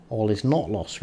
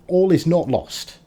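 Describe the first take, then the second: First: Said in the usual way. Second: High, loud determined rally; rally yourself, high and strong; rallying cry. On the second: Real, not acted. Rallying after the setback.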